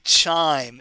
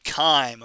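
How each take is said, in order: First: The word begins with a CH sound. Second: The word begins with a K sound. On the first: The speaker calls it wrong. "I don't want to ever hear you say chime" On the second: The speaker calls it right. "It's called chyme, okay? ... we pronounce it with a hard K"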